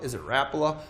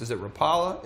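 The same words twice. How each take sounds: First: "Rapala" said RAP-luh, stress up front; alternative pronunciation. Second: "Rapala" said ruh-PAH-luh, questioning; alternative pronunciation. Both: Shown as a demonstration. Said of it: "how you like to pronounce it".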